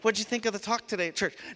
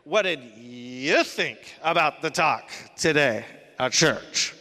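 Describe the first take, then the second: First: It is asked in a neutral, friendly tone. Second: It is asked in a critical, accusing tone.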